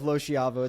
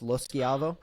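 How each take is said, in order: First: The name is pronounced the American way. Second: The name is pronounced the Italian way. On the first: This is the easier form used day to day. "we just go with" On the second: This is the original, proper form of the name. "if you're actually saying it properly"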